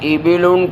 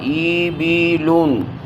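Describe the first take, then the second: First: The first vowel is short. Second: The first vowel is drawn out long. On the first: The speaker calls it right. "इस तरह पढ़ें" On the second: The speaker calls it wrong. "यूं पढ़ना गलत होगा"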